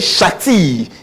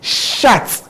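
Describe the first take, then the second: First: The word ends with an added ee vowel. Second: The word ends on a clear t sound. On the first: The speaker calls it wrong. "We don't say shati" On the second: The speaker calls it right. "It goes to be shat"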